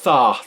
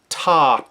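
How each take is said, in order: First: Each syllable starts with a soft th sound. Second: Each syllable starts with a crisp t sound. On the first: The speaker calls it wrong. "Make sure that the tongue does not start between the teeth like" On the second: The speaker calls it right. "No, we want"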